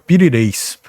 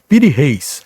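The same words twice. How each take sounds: First: The name is said the Turkish way. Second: The name is said the usual Portuguese way. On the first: This is how the man's own people say it. "ele era turco e a pronúncia natural é" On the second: This is how most people say it. "A pronúncia é mais comum você encontrar como"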